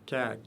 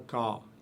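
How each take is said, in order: First: The consonant is light and thin. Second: The consonant is heavy and deep. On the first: The speaker calls it right. "prononcé légèrement" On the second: The speaker calls it wrong. "et non pas ka"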